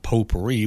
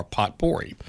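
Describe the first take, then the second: First: Said in the usual way. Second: "potpourri" said as it is spelled, POT-por-ee; "potpourri" read literally with a hard T in the middle; mispronounced potpourri. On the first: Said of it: "pronounced as it's supposed to be". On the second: Shown as a demonstration. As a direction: sound the T in "potpourri", like pot plus pory. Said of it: "whether or not potpourri was pronounced".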